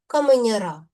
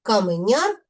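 First: Каменяра stressed on final "ра"; stress on ending. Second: Каменяр stressed on final "няр"; stress on suffix. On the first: Teacher showing stress moving in genitive, stress on ending. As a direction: shift the stress to the last syllable of каменяра. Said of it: "наголос змінив своє місце". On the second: Teacher demonstrating nominative of a profession, stress on suffix. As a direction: lean on the last syllable of Каменяр. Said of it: "наголос падає на суфікс". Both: Shown as a demonstration.

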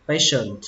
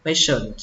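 The two takes are said the same way.

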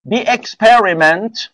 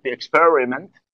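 First: Slow, showy English accent, ending on a rise; put-on English accent. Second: Said in the usual way. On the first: Shown as a demonstration. Teacher reading a test sentence, showing off an English accent. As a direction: stretch it out in an affected English accent. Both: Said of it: "خودم لهجه اومدم ها".

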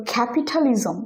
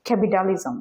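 First: ক্যাপিটালিজম with an aspirated t; standard t. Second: ক্যাপিটালিজম as "capidalism"; flapped t. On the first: Teacher saying it as learners expect, ক্যাপিটালিজম with a clear t. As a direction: keep the t hard in ক্যাপিটালিজম. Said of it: "আমি pronounce করি". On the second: Teacher showing what confuses the listener, ক্যাপিটালিজম with d for t. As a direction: turn the t in ক্যাপিটালিজম into a quick d. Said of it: "কিন্তু একজন pronounce করতেছে". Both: Shown as a demonstration.

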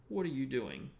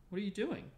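First: Loud snarled challenge, pitch falling; suspicious snarl. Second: Much higher, lighter friendly question; friendly, unlike Filch. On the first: Filch catching Harry alone, snarling suspiciously. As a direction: snarl it loudly at someone you suspect. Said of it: "Filch snarled suspiciously". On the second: Lupin finding Harry in the corridor, friendly inquiry. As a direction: ask it high and mildly, without any snarl. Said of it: "in a very different voice from Filch". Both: A narrator's reading.

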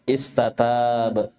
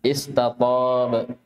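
First: Slow استتاب, both Ts thin and front; light tā'. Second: Slow استطاب, heavy dark T before long vowel; emphatic ṭā'. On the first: Teacher contrasts tā' mid-word, slow light T. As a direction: draw out استتاب with plain dental Ts. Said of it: "فرقوا بين الطاء والتاء". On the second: Teacher shows ṭā' mid-word, slow emphatic T. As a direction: say استطاب with a backed second T. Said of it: "طأ في وسط الكلمة". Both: Shown as a demonstration.

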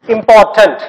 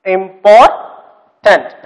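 First: Said in the usual way. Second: "Important" drawn out slowly, broken into syllables. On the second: Shown as a demonstration. Teacher showing children the syllables, "Important" slowly pulled apart. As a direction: split "Important" with a long gap before the last syllable. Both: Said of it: "how many syllables are there".

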